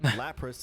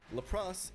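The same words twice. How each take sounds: First: The name has its plain, usual pronunciation. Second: The name has an odd, joking pronunciation. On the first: The speaker calls it right. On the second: The speaker calls it wrong.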